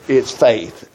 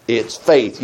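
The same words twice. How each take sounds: First: It's punched, faith low; stress on it's. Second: Faith landed firmly, low; stress on faith. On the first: Preacher hammering home the point, stress on It's. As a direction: lean on the word It's. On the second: Preacher repeating the answer, stress on faith. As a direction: lean on the word faith. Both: Shown as a demonstration.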